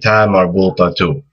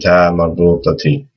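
First: The word ends with a final u vowel. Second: The word ends with a final i vowel. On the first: "if you're saying another word after it, and you want to keep going" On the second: "with the kasra"

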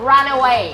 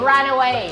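The two takes are said the same way.

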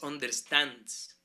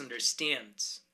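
First: The last syllable has an A-like vowel. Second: The last syllable has an E-like vowel. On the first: The speaker calls it wrong. "No es understands" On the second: The speaker calls it right. "es understands, como con una E"

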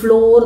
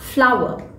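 First: The word rhymes with door, one syllable. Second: The word sounds like flower, with an 'ow' vowel. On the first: The speaker calls it wrong. "നമ്മൾ എപ്പോഴും കേൾക്കുന്നതാണ് ഈ ഫ്ലോർ" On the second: The speaker calls it right. "The correct pronunciation is ഫ്ലവർ"

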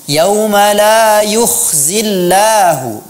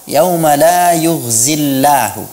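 First: The consonant is a voiceless rasping kh. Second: The consonant is a voiced gargled gh. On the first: The speaker calls it right. "tolong diperhatikan" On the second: The speaker calls it wrong.

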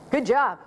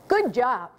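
First: It is said flatly, without enthusiasm. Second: It is said with more enthusiasm.

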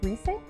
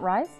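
First: The name is not said like English 'rise'. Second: The name is said like English 'rise'. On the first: The speaker calls it right. "That's pronounced Rise?" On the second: The speaker calls it wrong. "Not Rise? ... it's spelled like the word Rise"

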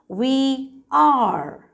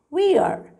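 First: Two full words are said separately. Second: The words are joined into one short syllable.

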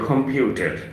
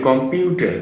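First: The first k sound is aspirated. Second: The first k sound is unaspirated. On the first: "তারা বলে" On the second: "আমরা বলি"

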